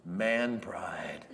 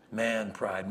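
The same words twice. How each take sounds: First: Whispered, low and slow "Man pride"; hushed aside. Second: Said in the usual way. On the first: Shown as a demonstration. Preacher telling the congregation, whispering "Man pride". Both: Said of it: "You know what we call that?".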